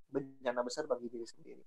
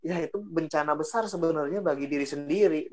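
First: Quiet repeat. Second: Said in the usual way. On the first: Shown as a demonstration.

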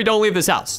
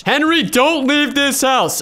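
First: Said in the usual way. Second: High, slow, drawn-out plea; a haunted house warning, slow and high; dramatic pleading. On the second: Retold or imitated. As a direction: beg him to stay, stretching it out. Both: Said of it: "she said".

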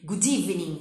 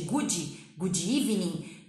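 First: "good evening" run together as "gu-deevening"; loud, joined "gu-DEE-vening"; linked D. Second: "good" said as "goo-djee" before "evening"; slow, separated "goo-djee evening"; extra vowel mistake. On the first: Teacher correcting learners, "good" glued to "evening" by the D. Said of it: "junto o D". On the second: Teacher mocking learners' mistake, "good" turned into "goo-djee". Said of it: "em vez de". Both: Shown as a demonstration.

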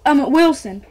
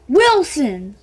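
First: Said in the usual way. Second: Loud annoyed Wilson!; frustrated cry. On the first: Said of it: "I think Winston". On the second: Real, not acted. Kid annoyed he misread the ball's brand, loud Wilson!. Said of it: "God dang it!".

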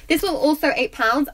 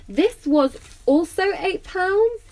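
First: Quicker restatement, less lift on "pounds"; assured confirmation. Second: Slow, high rise on "pounds", as a question; unsure questioning. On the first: Vlogger confirms the bag's price to viewers, assured. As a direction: confirm it briskly after checking, "pounds" less raised. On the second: Vlogger double-checks the bag's price, questioning with "pounds" rising. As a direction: query it slowly, lifting "pounds" right up. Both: Real, not acted.

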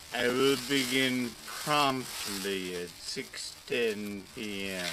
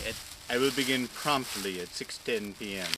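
First: Spelled out slowly; slow it right down for clarity; slow and deliberate. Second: Said in the usual way. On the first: Shown as a demonstration. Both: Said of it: "repeated slower".

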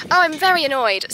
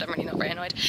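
First: Louder, mock-cross declaration; mock annoyed. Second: Said in the usual way. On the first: Shown as a demonstration. Rider jokingly complaining about herself, mock-annoyed. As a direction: announce being annoyed, half joking.

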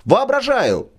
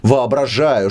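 First: Воображаю thrown up high and bitter; pitched-up repeat. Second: Said in the usual way. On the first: Acted. Брыкович repeats it to the drunk, mounting scorn.

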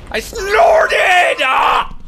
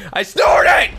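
First: Even louder and higher, near tears with laughter; crying with laughter. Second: Loud, high, laughing yell; laughing shout. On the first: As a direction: let the yell crack into a laughing cry. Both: Real, not acted. Laughing at own snort.

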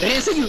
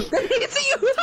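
First: Said in the usual way. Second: High laughing disbelief. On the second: Real, not acted. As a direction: laugh through the words. Teammate escaped unseen.

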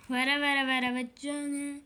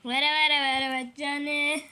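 First: Mock dying lament. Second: Mock dying lament, louder. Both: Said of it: "beni hastaneye kaldırana kadar".

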